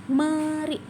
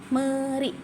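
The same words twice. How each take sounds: Both takes have the same delivery.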